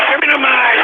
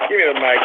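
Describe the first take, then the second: First: High, exasperated outburst; sudden yell. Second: Said in the usual way. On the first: Real, not acted. Host demanding the mic, sudden yelling. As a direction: explode on the repeated demand.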